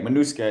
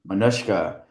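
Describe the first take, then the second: First: The middle consonant is a plain s sound. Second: The middle consonant is a sh sound. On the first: The speaker calls it wrong. "Am I saying that correctly?" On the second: The speaker calls it right. "There's a sh in it"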